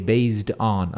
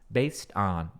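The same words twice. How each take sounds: First: The word ends with a z and d sound. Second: The word ends without a z and d sound. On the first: The speaker calls it wrong. "Não é based com som de Z e D" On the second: The speaker calls it right. "é based on"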